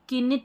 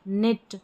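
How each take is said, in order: First: The word begins with a k sound. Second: The word begins with an n sound. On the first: The speaker calls it wrong. "अब इसको किनिट नहीं पढ़ते हैं ना" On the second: The speaker calls it right.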